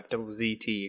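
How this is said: The letter Z is said as zee.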